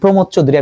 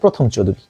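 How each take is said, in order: First: The first name is said as Pramatha. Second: The first name is said as Prothom. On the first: The speaker calls it right. "এই প্রমথ Chowdhury" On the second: The speaker calls it wrong. "আমি বলতাম প্রথম চৌধুরী"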